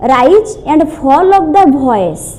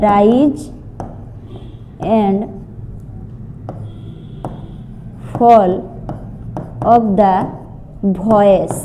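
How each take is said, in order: First: Said in the usual way. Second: rise with a rising tune, ଫଲ୍ and voice falling, long pauses between words; showing rise and fall. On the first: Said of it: "ଇଣ୍ଟୋନେସନ୍ means ହେଉଛି". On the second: Shown as a demonstration. Teacher demonstrating intonation to students, spaced rise then fall. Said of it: "that means ଇଣ୍ଟୋନେସନ୍ କୁହାଯାଏ".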